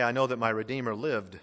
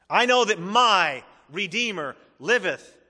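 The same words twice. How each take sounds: First: Said in the usual way. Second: "my" high, loud and drawn out, slow line; stress on MY. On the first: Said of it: "Job didn't say". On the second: Shown as a demonstration. Preacher declares Job's personal faith, stressing "my". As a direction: proclaim it with weight on "my". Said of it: "the Redeemer was also his".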